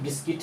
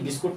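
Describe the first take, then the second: First: The second syllable sounds like 'kit'. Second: The second syllable sounds like 'kut'. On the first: The speaker calls it right. "ये बिस्किट है" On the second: The speaker calls it wrong. "ये बिस्कुट नहीं है"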